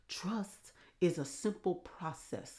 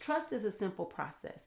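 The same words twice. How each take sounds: First: It is said in a put-on imitated voice. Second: It is said in the speaker's normal voice. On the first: "I'm going to try it anyways" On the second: "No, I'm not doing that"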